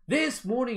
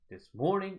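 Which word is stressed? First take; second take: this; morning. First: Both words get equal full stress. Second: This is reduced; morning is stressed.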